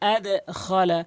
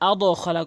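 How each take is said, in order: First: The d is released with a slight echo. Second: The d is cut off with no echo. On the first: The speaker calls it right. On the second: The speaker calls it wrong. "আদ খলা কখনোই বলতে পারবেন না"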